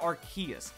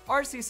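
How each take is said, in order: First: The name begins without an 'arse' sound. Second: The name begins with an 'arse' sound. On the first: The speaker calls it wrong. "It's not stupid Arceus. Sounds like it's being spoken by a buck-toothed snobby kid" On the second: The speaker calls it right. "Arceus is just better in every way with the pronunciation"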